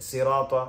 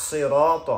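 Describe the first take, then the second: First: সিরাত with a thin, light s like sin; সিরাত with a thin, light s, the common mistake; wrong sin sound. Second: সিরাত with a full, heavy emphatic sad; সিরাত with a thick, emphatic sad; full sad sound. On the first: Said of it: "সাদটাকে সিনের মতো উচ্চারণ করে". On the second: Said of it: "বরং এরকম হবে". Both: Shown as a demonstration.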